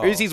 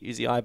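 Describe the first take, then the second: First: The name is spoken as one word. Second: The name is spoken as separate letters. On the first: This is how most people ended up saying it. The speaker calls it wrong. "someone decided Uzi's what we get" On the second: This is how the player's name is meant to be said. The speaker calls it right. "It is supposed to be Uzi"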